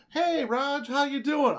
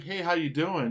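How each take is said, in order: First: "Hey, Raj" read high and loud, mock hostile; pissed-off reading. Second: Said in the usual way. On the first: Shown as a demonstration. Host reads a friendly text as a pissed-off mock attack. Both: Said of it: "You're a pissed off at me" voice".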